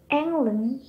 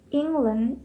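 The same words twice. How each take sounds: First: "England" with an open "eng" first vowel; Modern English pronunciation. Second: "England" with an ee-like first vowel and a clear g; Old English pronunciation. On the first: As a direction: say "England" as "ENG-lan", rising at the end. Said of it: "in Modern English". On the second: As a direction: say "England" as "ING-gland". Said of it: "is England in Old English". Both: Shown as a demonstration.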